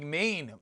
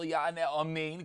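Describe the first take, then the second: First: The opening vowel is swallowed, leaving "men". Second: The opening vowel is clearly pronounced. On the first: The speaker calls it wrong. "You don't want to grab the Aleph. It sounds like main" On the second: The speaker calls it right. "You should be careful"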